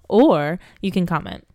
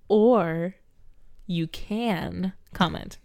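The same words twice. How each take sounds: First: The phrase is said quickly with little energy. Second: The phrase is said with one word strongly stressed. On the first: "you kind of threw away the comment thing" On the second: "And now you've emphasized the wrong word"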